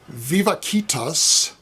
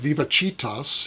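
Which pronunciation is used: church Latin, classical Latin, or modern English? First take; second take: classical Latin; church Latin. First: It is pronounced the classical scholarly Latin way. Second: It is pronounced the Catholic Church Latin way. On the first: "if you speak scholarly Latin"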